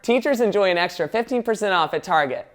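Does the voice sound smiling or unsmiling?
smiling. It is read smiling, with brighter vowels. "I can smile and suddenly the vibe changes"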